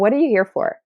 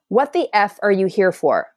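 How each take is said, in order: First: It is said gently, with warmth. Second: It is said harshly, with force.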